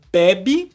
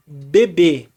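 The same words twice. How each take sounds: First: Bebe with stress on the first syllable, open E: BÉ-bi; bebe, paroxytone, stress on the first be. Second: Bebê with stress on the last syllable, closed E: be-BÊ; bebê, oxytone, stress on the final ê. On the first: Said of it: "a palavra". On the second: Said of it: "e a palavra bebê". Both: Shown as a demonstration.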